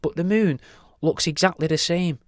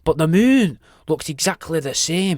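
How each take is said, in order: First: It is said in a plain, ordinary accent. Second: It is said in a Scottish accent.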